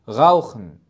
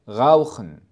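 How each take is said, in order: Both takes have the same delivery.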